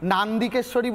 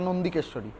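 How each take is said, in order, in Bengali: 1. প্রথম অক্ষরে একটি খোলা 'aa' স্বর আছে। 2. প্রথম অক্ষরে একটি 'o' স্বর আছে। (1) "নান্দিকেশ্বরী বলে তো আমি ... কখনো কোনো সতীপীঠ আছে বা কোনো মন্দির আছে শুনিনি" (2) "কথাটা নন্দিকেশ্বরী"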